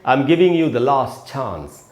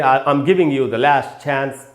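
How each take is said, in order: First: The sentence is spoken with a British accent. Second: The sentence is spoken with an American accent. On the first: "British में कैसे बोलेंगे" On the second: "American बोलेंगे"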